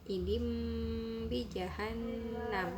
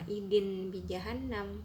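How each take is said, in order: First: An m sound comes before 'bi'. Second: An n sound comes before 'bi'. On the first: The speaker calls it right. "diganti menjadi idim pakai em" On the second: The speaker calls it wrong. "maka dibacanya bukan yauma idin bijahannam"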